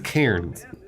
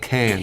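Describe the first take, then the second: First: The word is said with an R sound. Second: The word is said without an R sound. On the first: The speaker calls it right. "she means Cairns" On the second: The speaker calls it wrong. "not cans"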